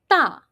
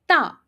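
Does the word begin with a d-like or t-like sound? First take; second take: t-like; t-like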